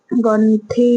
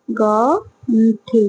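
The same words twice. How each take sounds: First: Said in the usual way. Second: ଗଣ୍ଠି stretched out very slowly, syllable by syllable; slow, drawn-out. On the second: Shown as a demonstration. Teacher models ଗଣ୍ଠି slowly for the class, drawn out. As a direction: draw out ଗଣ୍ଠି slowly so children can copy. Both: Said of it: "ହେଲା".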